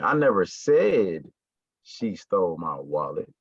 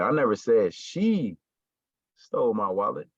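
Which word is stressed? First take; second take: said; she. First: The stress falls on the word said. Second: The stress falls on the word she. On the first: It was only hinted at, not said. "I may have alluded to it, I may have hinted towards it, but I never said it" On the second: Someone else took the wallet. "somebody did it, but it wasn't her"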